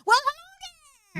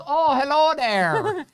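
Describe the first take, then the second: First: Imitating her mom. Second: High, slow, sing-song "Oh, hello there"; imitating mother-in-law. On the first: Wife imitating her mother's greeting, high and chirpy. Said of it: "my mom ... she always says". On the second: Husband mocking his mother-in-law's greeting, high and slow. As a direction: stretch it out way up like a sweet old lady. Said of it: "No, that's not what she does. She goes".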